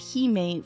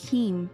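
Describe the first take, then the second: First: It is said in the altered 'Hime' way. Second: It is said in the usual 'heme' way. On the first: It sounds better and also means princess. "I pronounce it Hime" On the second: This is the usual pronunciation of the word. "it's normally pronounced heme"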